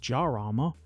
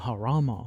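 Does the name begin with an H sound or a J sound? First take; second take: J sound; H sound. First: The name begins with a J sound. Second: The name begins with an H sound. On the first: "which I initially wanted to pronounce as Jarama, because that's how it's spelt" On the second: "the description included the pronunciation Harama"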